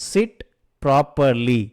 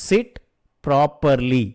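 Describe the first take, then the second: The two takes are said the same way.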